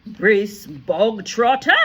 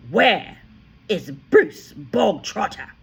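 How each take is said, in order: First: Loud, slow barking headmistress. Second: Loud, slow, higher bellow; booming tyrant headmistress; headmistress bark. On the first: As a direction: bark the name out to the whole school. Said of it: "the Trunchbull barked suddenly". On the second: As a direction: demand him like a drill sergeant. The Trunchbull barked. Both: A narrator's reading.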